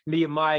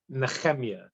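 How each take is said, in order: First: The middle consonant is a plain, soft h. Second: The middle consonant is a rough, throaty ch. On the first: This is the easier, English way of saying it. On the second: This is the Hebrew way of saying it.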